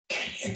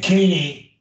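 First: Quick faint whispered word. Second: Said in the usual way. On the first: Shown as a demonstration. Teacher models a word for the student, whispering. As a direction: whisper it just before saying it aloud. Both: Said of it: "you whisper it first".

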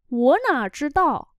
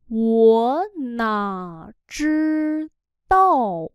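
First: Said in the usual way. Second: Loud, very slow, stretched syllables; slow syllable-by-syllable model. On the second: Shown as a demonstration. Teacher models phrase for learners, slow and loud. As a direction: spell it out slowly and firmly, sound by sound.

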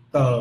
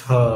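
First: Unaspirated Vietnamese tờ, no puff of air; teacher demos tờ the Vietnamese way. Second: Tờ with a strong puff of air, aspirated; teacher demos English t with a puff of air. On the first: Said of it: "tiếng Việt". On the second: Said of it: "tiếng Anh". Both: Shown as a demonstration.

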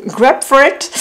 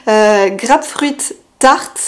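First: Grapefruit said the English way, /ɡapfit/, with a laugh; English accent. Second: Grapefruit said the French way, /ɡʀapfʀɥit/, then Tart; French-accented English. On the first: (accent anglais sur Grapefruit, en riant) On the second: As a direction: read the name with a plain French accent. (Grapefruit Tart avec un accent français) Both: Shown as a demonstration. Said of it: "Désolée pour mon super accent, euh, English".

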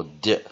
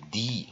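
First: D as a short "duh"; reduced vowel. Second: D as "dee", clear "ee"; full vowel. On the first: Teacher offering second option for weak syllable, D as "duh". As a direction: say D with a schwa, "duh". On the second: Teacher offering first option for weak syllable, D as "dee". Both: Shown as a demonstration. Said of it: "你可以念D或D".

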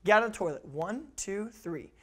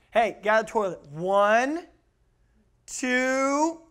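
First: "One, two, three" evenly clipped, falling away; brisk firm count. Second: "One" and "two" stretched long and rising, loud; drawn-out count. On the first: Strict parent counts a child out of toilet, brisk even count. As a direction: count "One, two, three" straight through without stalling. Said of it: "here's the expectation". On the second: Lax parent counts at a child in toilet, loud drawn-out count. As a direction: stall on each number, dragging "One" and "two" upward. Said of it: "here's what happens if you don't". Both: Shown as a demonstration.

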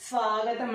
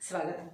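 First: స్వాగతం with a drawn-out aa; svaa-gatam, holding the first vowel of స్వాగతం; long first vowel. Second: స్వాగతం with a short a, as svagatam; no long aa in స్వాగతం; short first vowel. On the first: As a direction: stretch svaa at the start of స్వాగతం. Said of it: "స్వాగతం అంటే welcome". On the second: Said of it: "సెల్ఫ్గా మనం ఏదో చెప్పుకోవడం". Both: Shown as a demonstration.

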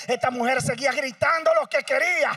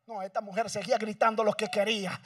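First: The repeat said louder and higher; louder preaching. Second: Said in the usual way. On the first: Shown as a demonstration. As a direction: lift the voice on the repeat. (dicho más fuerte y agudo) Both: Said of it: "repeated louder".

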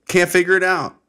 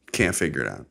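First: High, loud burst of frustration; exasperated outburst. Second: Low, deflated delivery; resigned repeat. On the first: Host acts out not knowing why he's pissed, exasperated. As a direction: throw it out high, at a loss. Exasperated, then resigned repeat. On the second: Host gives up on figuring out his anger, resigned. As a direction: drop it down low and give up. Same words, dropped to resignation. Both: Acted.

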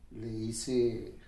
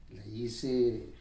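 The two takes are said the same way.

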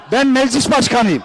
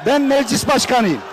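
First: Said in the usual way. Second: Shouted assertion. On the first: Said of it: "repeats claim". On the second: Real, not acted. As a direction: shout BEN, raised. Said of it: "shout heard". (yüksek sesle bağırarak "Ben meclis başkanıyım")

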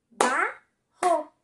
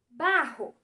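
First: "Barro" broken into Ba - rro; two loud, separate beats on "Barro"; syllable by syllable. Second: Said in the usual way. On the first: Shown as a demonstration. Teacher demonstrates syllables, "Barro" split into Ba, rro. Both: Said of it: "Vamos tentar fazer com palmas?".

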